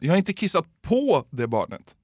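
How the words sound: The word på carries the main stress. The peeing happened somewhere else relative to the child. "Finns det något mer ord man kan betona?"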